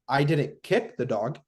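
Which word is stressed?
kick. The stress is on the word kick.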